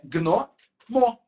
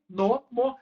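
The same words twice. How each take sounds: First: Gnomo drawn out slowly as gno-mo, no i; two syllables. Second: Gnomo as three beats, gui-no-mo; extra i inserted. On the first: Teacher shows correct division, slow two-beat gnomo. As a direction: hold gno, then mo, g joined to n. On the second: Teacher explains why it seems three syllables, gnomo with added i. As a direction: sound a false i after the g in gnomo. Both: Shown as a demonstration. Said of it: "aquele i não existe".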